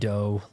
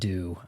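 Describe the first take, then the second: First: The vowel is a long 'oh' sound. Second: The vowel is a long 'oo' sound. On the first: The speaker calls it right. "I pronounce it dough like Nintendo" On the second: The speaker calls it wrong. "not do. I think they pronounce it do"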